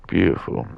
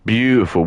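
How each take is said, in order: First: Said in the usual way. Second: High, loud admiring "Beautiful."; enthusiastic praise. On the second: Real, not acted. Viewer asked for an opinion, loud delighted praise. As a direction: gush over it, louder and higher. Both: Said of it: "What do you think?".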